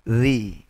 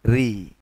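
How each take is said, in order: The two takes are said the same way.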